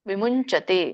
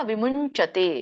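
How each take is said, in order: No difference in how they are said.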